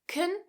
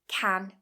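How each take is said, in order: First: The vowel is reduced and weak. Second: The vowel is full and strong. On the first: "I'm using the weak form" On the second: "I'm using the strong form"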